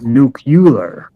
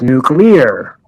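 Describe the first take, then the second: First: It is said as 'nucular', with 'cu' syllable. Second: It is said with 'clee' like in nucleus. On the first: The speaker calls it wrong. "Nuclear just sounds ignorant" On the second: The speaker calls it right. "It's like a nucleus of an atom"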